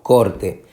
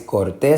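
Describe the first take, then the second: First: The stress is on the first syllable. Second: The stress is on the last syllable. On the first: The speaker calls it right. "sino corte" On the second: The speaker calls it wrong. "no es corté"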